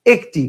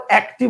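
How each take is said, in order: First: একটি said "ek-ti"; closed e vowel. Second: একটি said "æk-ti"; wrong open vowel. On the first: Teacher answers his question to students, একটি as "ek-ti". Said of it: "আপনি বলেন কি". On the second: Teacher rejects this form for students, একটি as "æk-ti". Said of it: "আবার একটি বলেন না". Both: Shown as a demonstration.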